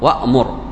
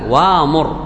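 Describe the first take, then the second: First: A glottal stop closes the first syllable. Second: A long a vowel replaces the glottal stop. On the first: "الهمزة هنا ساكن" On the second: "ما الذي يناسب الفتحة؟ الألف"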